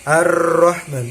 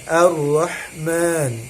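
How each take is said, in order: First: The doubled r is hard and strongly trilled. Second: The doubled r is held softly and gently. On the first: The speaker calls it wrong. "jangan seperti huruf R, bukan Ar-Rahman, bukan" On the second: The speaker calls it right. "Dia di lebih lembut"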